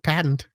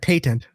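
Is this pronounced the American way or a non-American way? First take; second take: American; non-American. First: It uses the American pronunciation. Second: It uses a non-American pronunciation. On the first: The speaker calls it right. "We say it patent" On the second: The speaker calls it wrong. "you shouldn't be saying it that way because you're in America"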